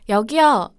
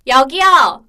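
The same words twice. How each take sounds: First: The call is ordinary and does not carry. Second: The call is sharp, resonant and carrying. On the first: The server does not notice the call. The speaker calls it wrong. "주변 지인들이, 여기요, 여기요, 이렇게 불렀을 때, 아주머니가 안 오세요" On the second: The server comes right away. The speaker calls it right. "꽂히는 소리를 잘 내는 편이라서"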